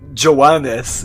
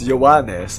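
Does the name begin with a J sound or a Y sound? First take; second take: J sound; Y sound. First: The name begins with a J sound. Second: The name begins with a Y sound. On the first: The speaker calls it wrong. "it's not" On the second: The speaker calls it right. "The J is an I"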